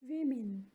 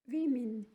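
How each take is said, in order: No difference in how they are said.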